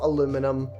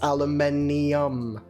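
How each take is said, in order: First: The word ends in '-inum', with four syllables. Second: The word ends in '-inium', with five syllables. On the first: This is the American form. The speaker calls it wrong. "It's not aluminum" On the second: The ending shows it is an element. The speaker calls it right. "The I U M is important"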